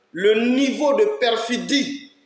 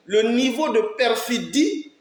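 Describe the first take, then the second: No difference in how they are said.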